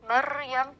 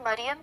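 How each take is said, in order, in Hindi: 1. r में कई अतिरिक्त टैप के साथ ट्रिल होती है। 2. r एक हल्का सिंगल टैप है।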